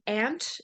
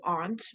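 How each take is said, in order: First: The vowel sounds like the one in cat. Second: The vowel sounds like the one in father. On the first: "can be pronounced like the insect ant" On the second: "or also aunt, like the A in Spanish for tía"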